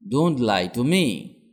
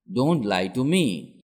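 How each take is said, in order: Both takes have the same delivery.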